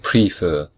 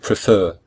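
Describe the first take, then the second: First: The stress is on the first syllable. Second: The stress is on the second syllable. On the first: The speaker calls it wrong. "We don't say prefer" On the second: The speaker calls it right. "the second syllable is stressed. So we say prefer"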